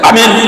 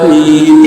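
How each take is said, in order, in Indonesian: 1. Diucapkan pendek tanpa lagu. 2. Diucapkan panjang dengan lagu. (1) "Ini enggak" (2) "amin pakai irama kan?"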